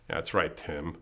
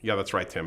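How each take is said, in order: First: It sounds sarcastic and condescending. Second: It sounds like sincere, friendly agreement.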